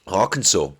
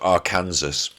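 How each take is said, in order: First: It is said the usual American way. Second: It is said as the English would say it.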